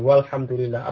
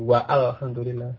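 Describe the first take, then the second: First: The alif is skipped, going straight to the L. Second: The alif is pronounced as an extra vowel. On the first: The speaker calls it right. "Alifnya tidak diucapkan. Jadi langsung ke kelamnya" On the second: The speaker calls it wrong. "Aneh kan gitu"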